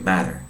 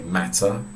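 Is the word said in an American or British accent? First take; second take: American; British. First: It is said in an American accent. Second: It is said in a British accent. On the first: "and they say matter" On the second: "We say matter"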